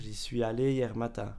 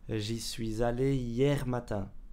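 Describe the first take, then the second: First: Suis and allé are said with no linking z. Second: A z sound links suis to allé. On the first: "On peut aussi dire" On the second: "on rajoute un Z pour faire la liaison"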